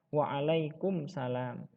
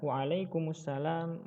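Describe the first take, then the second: First: The m in alaikum is closed with no vowel. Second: The m in alaikum carries a following vowel. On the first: The speaker calls it wrong. "salah ketika kita mengucapkan" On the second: The speaker calls it right. "Seharusnya yaitu dihidupkan huruf mimnya. Yang benar adalah"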